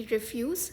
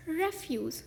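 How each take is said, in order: First: रिफ्यूज as ri-FYOOZ, short i first; verb pronunciation. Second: रेफ्यूज as REF-yooz, open e first; noun pronunciation. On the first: Teacher contrasting changed meanings, रिफ्यूज as ri-FYOOZ. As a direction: say रिफ्यूज leaning on the second syllable. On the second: Teacher contrasting changed meanings, रेफ्यूज as REF-yooz. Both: Shown as a demonstration. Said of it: "इन शब्दों के उच्चारण बदलने".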